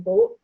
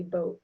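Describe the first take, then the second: First: "boat" with a pure, backed o. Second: Said in the usual way. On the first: Shown as a demonstration. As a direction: pull the tongue back for "boat". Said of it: "might sound more like boat". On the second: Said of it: "where I might say boat".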